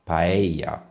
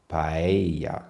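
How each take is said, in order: First: The double L is said like a Y. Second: The same.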